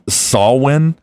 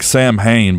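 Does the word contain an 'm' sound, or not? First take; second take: no m; m sound. First: It is said without any m or h sound. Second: It is said with an m and h sound. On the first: It follows the Gaelic pronunciation. The speaker calls it right. "so I think it's Sawin" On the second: It is read as it is spelled. The speaker calls it wrong. "It reads like Sam Hain"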